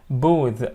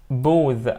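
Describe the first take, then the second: No difference in how they are said.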